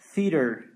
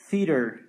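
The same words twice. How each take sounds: First: It is said with an American pronunciation. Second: The same.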